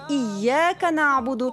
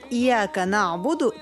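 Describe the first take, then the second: First: The y sound is doubled and held long. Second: The y sound is single and short. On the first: We worship You alone. The speaker calls it right. "то поклоняемся тебе одному" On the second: We worship the rays of the sun. The speaker calls it wrong. "получится «мы поклоняемся солнечным лучам»"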